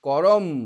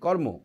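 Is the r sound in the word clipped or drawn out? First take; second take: drawn out; clipped. First: Each sound is given time, with a full r. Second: It is said quickly, with a clipped r. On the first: "করম যদি আমরা বলতাম, মানে কয়েও আমরা সময় দিচ্ছি, রয়েও" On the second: "এটাকে সংক্ষেপে তাড়াতাড়ি উচ্চারণ করছি"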